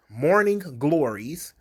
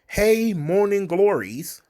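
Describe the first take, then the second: First: Scornful echo of the term; mocking repeat. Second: Slow, higher sing-song hey; drawn-out mock cheer for the class; teasing the suggested terms, slow and sing-song; mock sing-song greeting. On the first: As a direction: say it again with disdain. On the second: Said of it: "some of the things that were suggested".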